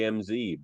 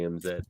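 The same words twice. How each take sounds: First: The Z is said the American way, 'zee'. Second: The Z is said the Canadian way, 'zed'.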